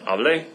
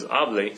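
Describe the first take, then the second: First: The stress is on the last syllable. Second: The stress is on the first syllable. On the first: It means I spoke in the past. "which is I spoke in the preterite" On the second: It is a command to speak.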